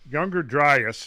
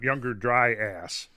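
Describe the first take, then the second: First: The last syllable has a weak, reduced vowel. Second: The last syllable sounds like the word 'ass'. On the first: The speaker calls it right. "it's it's younger Dryas" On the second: The speaker calls it wrong. "I hear people pronouncing it that way sometimes"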